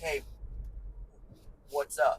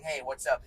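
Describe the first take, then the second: First: It is said with a stutter. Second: It is said smoothly without breaks.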